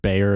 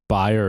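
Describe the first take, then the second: First: It is said with an American pronunciation. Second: It is said with a German-style pronunciation.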